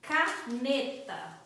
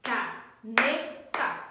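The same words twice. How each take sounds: First: Caneta split slowly into ca-ne-ta, one clap per syllable; clapped syllables. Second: Caneta stretched very slowly into ca-ne-ta, louder, rising at the end; slow syllable count. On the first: Teacher to parents, clapping out caneta syllable by syllable. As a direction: say caneta syllable by syllable, slow and even. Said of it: "trabalhando com as palmas". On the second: Teacher to parents, counting claps in Caneta, slow and louder. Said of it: "Quantas palmas?". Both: Shown as a demonstration.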